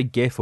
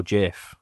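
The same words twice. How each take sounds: First: "gif" with a hard g, as in gift. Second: "gif" with a soft g, like jiff. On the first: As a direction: start "gif" with a hard g sound. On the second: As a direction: start "gif" with a j sound. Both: Shown as a demonstration. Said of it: "do you say gif or gif?".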